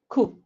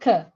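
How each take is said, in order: First: The vowel is like the one in 'book'. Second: The vowel is like the one in 'cup'. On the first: The speaker calls it right. "ku, cushion" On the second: The speaker calls it wrong. "not ka"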